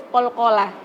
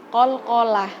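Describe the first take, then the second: No difference in how they are said.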